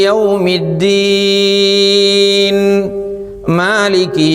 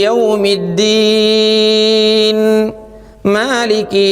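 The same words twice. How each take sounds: No difference in how they are said.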